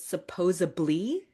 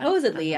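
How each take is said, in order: First: It has a B sound before the ending. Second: It has a D sound before the ending. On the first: The speaker calls it wrong. "with a B sound instead of a D sound" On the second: The speaker calls it right. "instead of a D sound"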